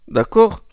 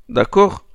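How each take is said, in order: Both takes have the same delivery.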